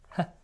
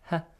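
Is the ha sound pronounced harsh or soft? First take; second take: soft; soft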